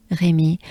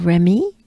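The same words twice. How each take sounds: First: "Rémy" with French vowels; French name. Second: "Remy" with an English R; anglicised Remy, English R and vowels; English pronunciation. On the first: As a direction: say Rémy the French way, RAY-MEE. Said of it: "it's the French name". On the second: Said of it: "In English". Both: Shown as a demonstration.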